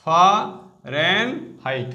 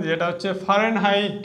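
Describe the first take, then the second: First: Fahrenheit stretched out slowly, syllable by syllable. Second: Said in the usual way. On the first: Shown as a demonstration. Teacher to students showing the spelling, very slow Fahrenheit. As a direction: drag out Fahrenheit so every part is heard. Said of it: "height spelling কিন্তু". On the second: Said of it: "Fahrenheit মনে রাখবে".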